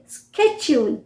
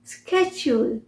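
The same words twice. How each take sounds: First: It starts with a 'sk' sound, American style. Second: The same.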